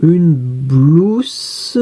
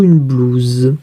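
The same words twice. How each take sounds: First: Blouse drawn out slowly, ending in a hissed sss; slow blouse with voiceless final s. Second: Blouse drawn out slowly, ending in a buzzing zzz; slow blouse with final z sound. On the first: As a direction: stretch blouse and end it on S, like blousse. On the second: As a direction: stretch blouse and end it on a voiced z. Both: Shown as a demonstration. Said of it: "on ne sait pas quel son ça fait".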